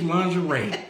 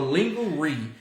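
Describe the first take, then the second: First: It is said in a standard accent. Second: It is said in a Southern US accent.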